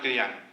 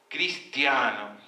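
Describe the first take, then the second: First: The vowels are swallowed and the word is slurred. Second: Every vowel is pronounced clearly and distinctly. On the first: The speaker calls it wrong. "no es cristiano" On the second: The speaker calls it right. "que las vocales sean pronunciadas"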